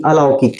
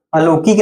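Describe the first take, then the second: First: अलौकिक with a clear au diphthong: a-lau-kik; the right way, अलौकिक with full au; correct pronunciation. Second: अलौकिक with a plain o sound: अलोकिक; the wrong way, अलौकिक as alokik; wrong pronunciation. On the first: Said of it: "ठीक है, अलौकिक". (सही उच्चारण: अलौकिक, औ साफ़) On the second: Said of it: "अलौकिक नहीं". (गलत उच्चारण: अलोकिक) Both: Shown as a demonstration.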